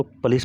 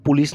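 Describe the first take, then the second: First: "पुलिस" said as puh-lees; unrounded first vowel in "पुलिस", like pə-lis; correct "पुलिस" pronunciation. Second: "पुलिस" said as poo-lis; oo sound in the first syllable of "पुलिस"; wrong "पुलिस" pronunciation. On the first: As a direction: say "पुलिस" with a schwa after the p. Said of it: "इसको पुलिस पढ़ेंगे". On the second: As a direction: say "पुलिस" with a rounded u after the p. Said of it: "पुलिस नहीं पढ़ेंगे". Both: Shown as a demonstration.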